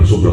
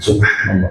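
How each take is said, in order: First: It is said quickly and clipped. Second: It is said slowly and calmly.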